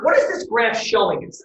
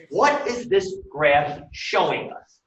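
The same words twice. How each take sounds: First: Said in the usual way. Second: Slowly spaced-out question; measured teacher's repeat, unhurried; slow, deliberate. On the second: Real, not acted. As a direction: put the question word by word.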